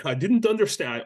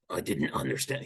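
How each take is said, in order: First: Said in the usual way. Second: Gravelly impression, low and soft; Zelensky. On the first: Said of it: "I can't do a Zelensky's accent". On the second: Shown as a demonstration. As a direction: attempt a low gravelly voice, half-hearted. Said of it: "He has this gravelly voice like this".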